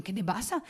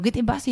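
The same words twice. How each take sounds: First: Much softer, scared question; frightened question. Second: Said in the usual way. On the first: Retold or imitated. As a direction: ask it hushed with fright. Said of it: "yo ya asustada le digo". (pregunta asustada, mucho más suave)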